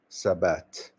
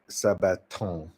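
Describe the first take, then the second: First: The final verb ending is not pronounced. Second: The final verb ending is pronounced aloud. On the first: The speaker calls it right. "you don't pronounce the ent" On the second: The speaker calls it wrong. "You don't say sabaton"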